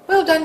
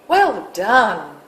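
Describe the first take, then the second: First: The voice rises at the end. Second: The voice falls at the end. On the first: The praise is only faint. "the voice goes up at the end" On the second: The praise is certain and approving. "if your inflection falls instead, it conveys certainty"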